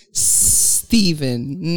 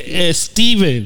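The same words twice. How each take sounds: First: "Steven" with a long S and no E before it; corrective pronunciation. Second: "Steven" with an E before the S, high and slow; Spanish-style leading E. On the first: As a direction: draw out the opening S of "Steven", slowly. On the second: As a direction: say "Steven" as "Esteven", louder and higher. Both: Shown as a demonstration. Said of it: "not es".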